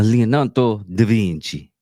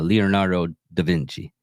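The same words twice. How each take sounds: First: The name is said in an Italian accent. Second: The name is said in a plain accent.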